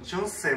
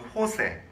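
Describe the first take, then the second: First: The name begins with a J sound. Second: The name begins with an H sound. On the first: "우리는 영어로 말하면 뭐, 조세 뭐 이렇게 되겠지만, 영어는 J를 발음하는데" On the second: "이 스페인어의 J나 우리말로 흐 하는 발음, 그 호세"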